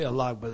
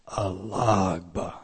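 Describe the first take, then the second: First: The word is said in a plain, ordinary way. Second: The word is said in a reverent, respectful way. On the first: "they don't say alagba" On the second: "they say alagba. I mean, there is a reverence to the term"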